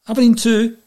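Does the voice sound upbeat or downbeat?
upbeat. The tone sounds upbeat and triumphant. The team has won the match. "you could tell by the tone of his voice. ... they've won"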